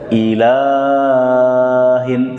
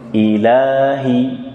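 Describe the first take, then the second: First: The long vowel is stretched too long. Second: The long vowel is held for two counts. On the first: The speaker calls it wrong. "jangan panjang-panjang. Ilahin, tidak" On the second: The speaker calls it right. "Dua harokat saja"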